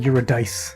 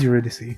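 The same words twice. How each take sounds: First: The final syllable does not rhyme with 'see'. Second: The final syllable rhymes with the word 'see'. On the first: The speaker calls it wrong. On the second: The speaker calls it right. "rhymes with C. ... so it is Eurydice"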